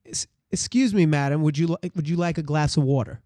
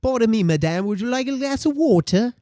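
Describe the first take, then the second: First: Everyday Brooklyn accent as a waiter; plain-spoken American Brooklyn waiter. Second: Higher-pitched, put-on British waiter; hammed-up British accent, lifting in pitch. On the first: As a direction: ask politely in your regular Brooklyn accent. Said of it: "This is American Brooklyn". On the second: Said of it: "Now you're in Britain". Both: Shown as a demonstration.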